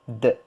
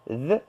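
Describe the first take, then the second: First: The consonant is a hard d sound. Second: The consonant is a soft th sound. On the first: The speaker calls it wrong. "les gens le prononcent d comme ça" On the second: The speaker calls it right. "cette lettre th"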